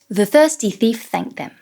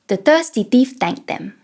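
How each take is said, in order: First: The th sounds are full, true th sounds. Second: The th sounds are replaced by t and d. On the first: "the correct technique with my tongue below and in front of my teeth" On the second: "Let's try it with T and D"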